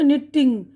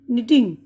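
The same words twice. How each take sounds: First: निटिंग with both T's pronounced, nit-ting; double T sounded. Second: निटिंग with one light T, ni-ting; single T sound. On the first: Teacher showing what not to say, निटिंग with doubled T. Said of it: "ये नहीं बोल रहे ना". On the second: Teacher correcting to single T, निटिंग said simply. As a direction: say निटिंग with no doubled T. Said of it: "ये single टी की आवाज़". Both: Shown as a demonstration.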